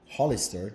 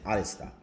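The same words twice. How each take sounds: First: The word starts with an H sound. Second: The word starts without an H sound.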